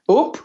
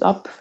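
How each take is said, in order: First: The word is said with a Scottish vowel. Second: The word is said with a standard vowel.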